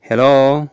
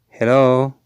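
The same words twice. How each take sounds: The two takes are said the same way.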